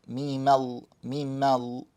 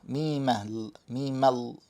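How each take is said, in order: The two takes are said the same way.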